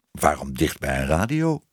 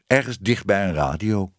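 First: Low start, "radio" lifting into a question; puzzled question. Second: Said in the usual way. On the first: Acted. Querying the cat's odd request, puzzled. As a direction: ask it puzzled, voice rising on "radio".

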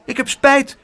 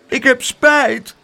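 First: High little voice, quickly called; quick child's apology. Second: High, loud, drawn-out little voice; child's apology. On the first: Biting child apologising after a bite, high and quick. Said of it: "riep hij snel". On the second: Biting child apologising to the aunt, high and slow. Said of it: "knikte Spijterbijt". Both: A narrator's reading.

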